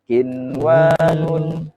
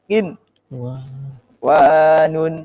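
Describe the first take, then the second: First: The word is said smoothly without any stop. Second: A brief stop breaks the word after the n. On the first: The speaker calls it right. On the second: The speaker calls it wrong.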